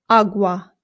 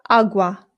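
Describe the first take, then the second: Both takes have the same delivery.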